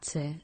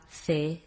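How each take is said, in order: First: The c sounds like s. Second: The c sounds like English th.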